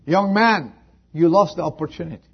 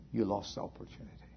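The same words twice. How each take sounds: First: Fast, loud and high, stress on lost; preacher's stern declaration; loud rebuke. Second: Whispered, fast and soft; mournful hushed verdict; quiet lament. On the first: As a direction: fling it at him. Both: Acted. Same words repeated, soft then loud.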